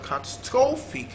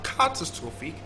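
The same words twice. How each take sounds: First: The stress is on the third syllable. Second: The stress is on the first syllable. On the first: "third syllable" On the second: "stress on the first syllable"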